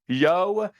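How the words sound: It is said as a flat statement.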